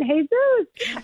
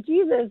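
First: "Jesus" as hay-ZOOS, the second syllable stressed; Spanish pronunciation. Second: Said in the usual way. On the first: Shown as a demonstration. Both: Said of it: "when I really meant".

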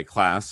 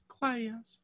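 First: Said in the usual way. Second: "Class" stretched into cla-yus, high and soft; high-pitched "Class" with a Southern glide in the vowel; two-syllable Southern "class". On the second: Shown as a demonstration. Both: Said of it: "class has two syllables".

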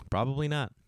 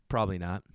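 First: Not landed with a falling tune; stress on not. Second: Probably said lower, leaning on Probably; stress on probably. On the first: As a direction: finish firmly on not. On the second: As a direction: drop the voice and hit Probably. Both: Shown as a demonstration.

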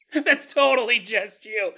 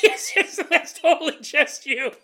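First: Said in the usual way. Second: High, loud, giggly reply; amused, pitched-up mock listener; laughing agreement. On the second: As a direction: agree emphatically through laughter. Imagined listener disagrees, through laughter.

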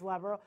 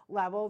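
First: Said in the usual way. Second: Level repeated much louder; level echoed with a loud hit; stress on level. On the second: Shown as a demonstration. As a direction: punch the word level.

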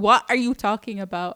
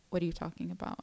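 First: Louder, fast, fed-up repeat; impatient second asking; exasperated. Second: Quiet puzzled question; low bewildered ask; confused. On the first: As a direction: throw the question back hard. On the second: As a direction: ask softly, lost. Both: Retold or imitated.

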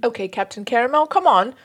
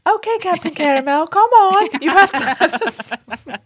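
First: Moderately put-on British voice; horrible British accent. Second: Exaggerated British little-girl voice, much higher and louder; Peppa Pig. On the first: Reading a letter's plea to Captain Caramel, horrible British accent. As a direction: coax in a lightly hammed bad British accent. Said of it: "do a horrible British accent". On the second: Redoing the listener's letter, high British little-girl impression. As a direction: pipe it up like an English cartoon child. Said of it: "That's what I should have done".

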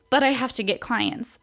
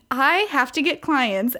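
First: Said in the usual way. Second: The word I stressed, a touch raised. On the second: Shown as a demonstration. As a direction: lean hard on I, the rest flows. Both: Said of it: "Emphasis on the I".

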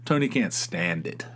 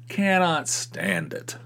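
First: Said in the usual way. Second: "Cannot" stretched out slowly and pitched higher; stress on cannot. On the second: Shown as a demonstration. Wife insisting Tony hates the place, "Cannot" slow and stressed. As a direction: lean hard and slow on "Cannot".

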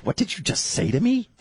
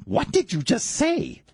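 First: High-pitched mock disbelief; comically incredulous, rising at the end; taken aback. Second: Very high, slow mock outrage; hammed-up affronted repeat; emphatic disbelief. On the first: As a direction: retell it as an affronted question. Retold reaction to wife's words. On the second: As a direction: draw out each word, incredulous. Retold reaction, repeated harder.

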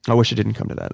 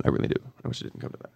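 First: Said in the usual way. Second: Choked, barely voiced whisper; real tears held back, fading out; near tears. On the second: Real, not acted. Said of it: "you're gonna make me cry".

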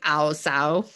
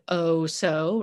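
First: Clumsy Cockney vowels, "ow, so"; a badly done Cockney "ow, so"; attempted Cockney accent. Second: Said in the usual way. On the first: Shown as a demonstration. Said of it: "vowels to show off that accent". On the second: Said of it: "Um, or probably".

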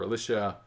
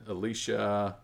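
First: Alicia said "uh-LISH-uh"; short "i" in Alicia; short-i pronunciation. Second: Alicia said "uh-LEE-shuh"; long "ee" in Alicia; long-ee pronunciation. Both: Shown as a demonstration. Offering two pronunciations of a name.

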